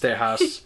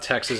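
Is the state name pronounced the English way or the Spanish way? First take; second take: Spanish; English. First: It is pronounced the Spanish way. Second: It is pronounced the English way. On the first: The speaker calls it right. "it's Tejas. ... these all used to be a part of Mexico, so you gotta say it the right way" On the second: The speaker calls it wrong. "it's not Texas"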